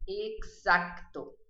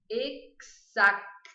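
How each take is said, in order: First: "Exacto" slowly, with a KS and a clearly sounded C before the T. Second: "Exacto" drawn out very slowly, syllable by syllable; very slow, careful. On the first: Teacher showing that the C is not silent. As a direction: make the C in "Exacto" clearly heard. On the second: Teacher drilling a hard word very slowly. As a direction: spell out "Exacto" slowly and clearly. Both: Shown as a demonstration. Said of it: "tem que pronunciar esse Czinho".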